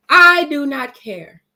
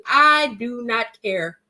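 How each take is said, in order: First: "I do not care" louder and slow, every word punched; emphatic repeat. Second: Said in the usual way. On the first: Real, not acted. Telling viewers she doesn't care, louder and slow.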